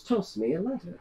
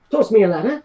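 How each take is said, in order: First: Quiet repeated order. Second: Commanding order. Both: Acted. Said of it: "She goes".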